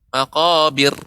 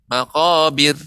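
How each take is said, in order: Both takes have the same delivery.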